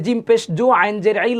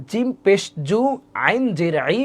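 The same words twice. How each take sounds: First: Quick, unbroken recital of the letters; run-together spelling. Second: Measured spelling, each unit set apart; broken-up, joined-step spelling. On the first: Teacher shows how she doesn't spell, run together. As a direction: rattle the spelling off without breaks. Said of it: "আমি এভাবে বানান করি না". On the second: Teacher shows how she spells, measured step by step. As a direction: draw out each letter, pausing between units. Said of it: "আমি বানান করি, খেয়াল করেন, এভাবে". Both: Shown as a demonstration.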